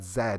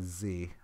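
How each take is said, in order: First: The letter is said the Canadian way. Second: The letter is said the American way.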